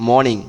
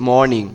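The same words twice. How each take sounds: The two takes are said the same way.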